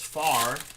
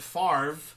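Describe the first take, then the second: First: The name is said with no V sound. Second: The name ends with an R then V. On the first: "far with no V" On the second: "with the R before the V"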